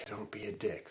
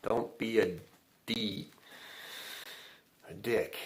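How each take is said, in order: First: Whispered. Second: Said in the usual way. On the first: Shown as a demonstration. Host whispers the motto to listeners, whispered. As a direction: drop to a sudden whisper on "Don't be a dick".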